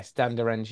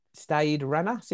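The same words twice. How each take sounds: First: "Stade de Rennes" with the "de" put back; "Stade de Rennes" repeated after the correction; corrected French name. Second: "Stade Rennes" without the "de"; "Stade Rennes" read in an English accent; mispronounced French name. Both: Real, not acted.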